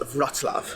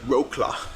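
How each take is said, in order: First: It is pronounced the native Polish way. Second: It is pronounced letter by letter as spelled. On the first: The speaker calls it right. "but it's pronounced Wrocław" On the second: The speaker calls it wrong. "it looks like Wrocław"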